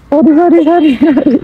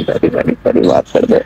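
First: Sing-song the sorry up high to coax her; jokingly coaxing sorry, pitched high; high pleading apology. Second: Whispered apology. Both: Real, not acted.

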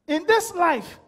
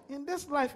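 First: "In this life" called out loud and strong; emphatic preaching. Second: "in this life" repeated softer, drawn back; quieter repeat. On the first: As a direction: proclaim it to the whole church. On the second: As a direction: echo it quietly to let it sink in. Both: Acted.

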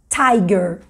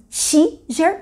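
First: "tiger" mais grave, como "tai-guer"; pronúncia inglesa. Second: "tiger" lido à portuguesa, "tchi-jer"; leitura como se escreve. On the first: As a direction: diga "tiger" com ditongo "ai" e g duro. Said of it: "mas fala". ("tiger" em inglês, "tái-guer") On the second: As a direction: leia "tiger" letra por letra, com som de i. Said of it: "escreve tiger, mas fala". ("tiger" devagar, como "tchi-jer") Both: Shown as a demonstration.

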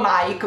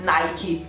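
First: Nike said as "naik"; Nike in one syllable. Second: Nike said as "naiki"; Nike with final ee. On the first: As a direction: stop Nike on the k, e silent. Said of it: "ho sempre detto solo". (Nike detto "naik", senza i) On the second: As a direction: add an ee to the end of Nike. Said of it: "mai Nike". (Nike detto "naiki", con la i) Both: Shown as a demonstration.

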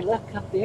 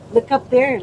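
First: Said in the usual way. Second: Loud coaxing. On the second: Real, not acted. Coaxing toddler to look at camera.

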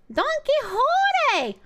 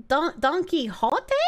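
First: High, slow sung "Don Quixote!" with a falling end; sung, belt the name like a show tune. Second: Said in the usual way. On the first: Shown as a demonstration. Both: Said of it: "I sang the song".

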